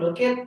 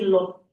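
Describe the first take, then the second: First: The ending is said as an extra syllable. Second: The ending is a short sound after k. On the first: The speaker calls it wrong. "instead of look at" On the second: The speaker calls it right. "you just give like uh like a little the the sound after the K"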